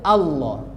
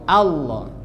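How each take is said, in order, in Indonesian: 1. Vokal pertama itu tipis, seperti a. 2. Vokal pertama itu tipis, seperti a.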